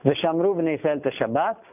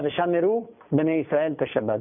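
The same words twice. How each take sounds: First: No vowel is heard between m and r. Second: A short vowel is heard between m and r. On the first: The speaker calls it wrong. "לא ושמרו, כמו שאומרים האשכנזים" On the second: The speaker calls it right. "אלא ושמרו בני ישראל את השבת... שמרו שוונה"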